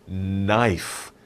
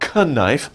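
First: The word starts with an n sound. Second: The word starts with a sounded k. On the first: The speaker calls it right. "The K is silent. Don't say the K" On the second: The speaker calls it wrong. "It's not knife, andeo"

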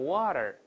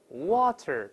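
First: The middle t is voiced, sounding like d. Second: The middle t is a clear, unvoiced t.

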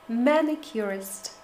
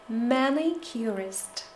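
The two takes are said the same way.

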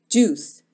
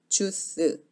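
First: It is said English-style, with rounded lips. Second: It is said Korean-style, without rounded lips. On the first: "영어처럼 juice" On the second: "입술을 오므리지 않으면 주스"

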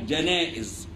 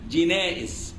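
First: The first vowel is 'a' (janaiz). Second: The first vowel is 'i' (jinaiz). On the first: The speaker calls it right. "بفتح الجيم جاء جنائز لا غير" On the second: The speaker calls it wrong. "ليس فيها جنائز"

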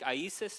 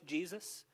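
First: The name is said with Greek pronunciation. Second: The name is said with English pronunciation. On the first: "if I'm saying it in Greek" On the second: "whether I'm saying in English Jesus"

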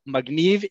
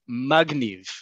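First: The stress is on the last syllable. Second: The stress is on the first syllable. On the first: Something is brilliant or captivating. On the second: Someone is a poser full of themselves.

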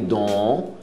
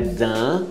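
First: The vowel sounds like a plain o. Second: The vowel is an open, clear a sound. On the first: "nem don" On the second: "Não é dent aberto"

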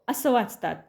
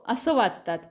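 No difference in how they are said.

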